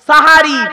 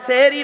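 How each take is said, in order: First: The first syllable has an 'a' vowel. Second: The first syllable has an 'e' vowel. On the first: The speaker calls it right. "শব্দটা হলো সাহারি। দন্তেশ্বয় একার নয়, দন্তেশ্বয় আকার।" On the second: The speaker calls it wrong. "সেহেরি নয়"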